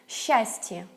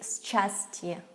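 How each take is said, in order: First: It begins with a single long sh sound. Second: It begins with separate s and ch sounds. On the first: This is how it is spoken. The speaker calls it right. "but say sh" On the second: This follows the spelling. The speaker calls it wrong. "we don't say"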